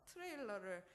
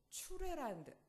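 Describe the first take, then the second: First: The word begins with a 'teu' sound. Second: The word begins with a 'chu' sound.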